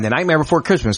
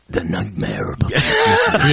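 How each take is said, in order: First: It is said in a plain, flat way. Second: It is said in a spooky, dramatic way.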